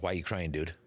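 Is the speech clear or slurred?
clear. The words are spoken clearly.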